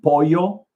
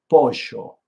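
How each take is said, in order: First: The double L sounds like an English y. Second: The double L sounds like zh or sh.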